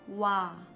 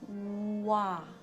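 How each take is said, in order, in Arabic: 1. يُنطق الحرف المتحرك بالسرعة العادية. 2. يُمَدّ الحرف المتحرك ببطء شديد. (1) "wenn man normal ausspricht" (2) "Wenn man ganz, ganz langsam ausspricht"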